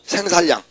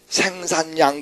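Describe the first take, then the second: First: The middle consonants are pronounced as a double 'l'. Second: The middle consonants are pronounced as a double 'n'. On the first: The speaker calls it wrong. "이렇게 읽으면 좋겠어" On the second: The speaker calls it right. "그러나 그렇지 않고 어떻게? 생산량 그런다"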